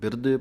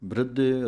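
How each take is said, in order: First: A vowel separates the b and the r. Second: The b and r form a cluster. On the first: The speaker calls it wrong. "ਇਹਨੂੰ ਬਿਰਧੇ ਪਾਠ ਨਹੀਂ ਪੜ੍ਹ ਦੇਣਾ" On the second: The speaker calls it right. "ਬ੍ਰਿਧੇ ਰਾਰੇ ਨੂੰ ਸਿਹਾਰੀ ਲਾ ਕੇ ਬੋਲਣਾ ਹੈ"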